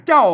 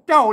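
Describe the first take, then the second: Both takes have the same delivery.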